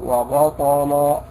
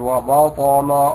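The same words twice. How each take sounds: No difference in how they are said.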